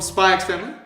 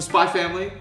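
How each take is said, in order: First: The letter X is pronounced between the words. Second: The letter X is left silent between the words.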